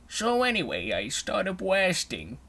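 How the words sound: It is said in an Elmer Fudd voice.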